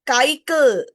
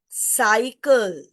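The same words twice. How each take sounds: First: The word begins with a hard k sound. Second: The word begins with a soft s sound. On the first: The speaker calls it wrong. "So this is not cycle" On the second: The speaker calls it right. "It is cycle"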